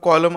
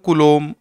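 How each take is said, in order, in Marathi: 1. पहिला स्वर मोकळा 'aw' आवाज आहे. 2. पहिला स्वर गोलाकार 'oo' आवाज आहे. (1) "त्याचा उच्चार कॉलम असा नसून" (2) "खरा जो उच्चार आहे ना त्याचा तो असा असतो"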